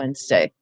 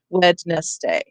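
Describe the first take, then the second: First: It is said the usual everyday way. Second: Every letter is sounded out as it is spelled.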